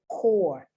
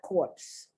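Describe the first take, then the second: First: It ends on the R with no P sound. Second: It ends with a clear P and S sound. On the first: The speaker calls it right. "A lot of people pronounce this word incorrectly. Core" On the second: The speaker calls it wrong. "it is not corpse"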